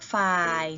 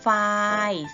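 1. พยางค์นี้เป็นเสียงเอก 2. พยางค์นี้เป็นเสียงสามัญ (1) "เสียงเอก" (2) "เสียงสามัญ"

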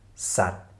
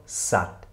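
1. Es endet auf einen t-Laut. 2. Es endet auf einen t-Laut.

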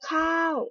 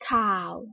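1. คำนี้ออกเสียงตก 2. คำนี้ออกเสียงต่ำ (1) "ไม่โทข้าว ... ถูกต้องค่ะเสียงโท" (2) "ไม่เอกข่าว"

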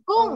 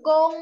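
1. คำว่า กง ออกเสียงเสียงสี่ 2. คำว่า กง ออกเสียงเสียงหนึ่ง (1) "เสียงสี่" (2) "เสียงหนึ่ง"

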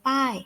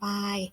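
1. พยางค์นี้ออกเสียงด้วยเสียงตก 2. พยางค์นี้ออกเสียงด้วยเสียงกลาง (1) "โท" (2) "จะเป็นเสียงสามัญ"

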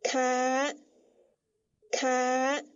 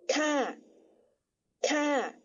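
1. 这个音节读高调。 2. 这个音节读降调。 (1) "标三读四咔咔" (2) "但使它念第三调，念作咔咔"

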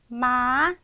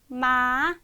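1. 음이 처음부터 끝까지 꾸준히 올라갑니다. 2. 음이 처음부터 끝까지 꾸준히 올라갑니다.

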